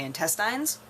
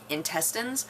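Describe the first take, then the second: First: Intestines ending in "tines", like vines; rural pronunciation. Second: Intestines ending in an unstressed "tinz"; standard pronunciation. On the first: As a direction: say intestines with a long "eye" at the end. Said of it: "because in rural areas". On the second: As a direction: say intestines with a short final "tuhnz". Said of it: "they say intestines". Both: Shown as a demonstration.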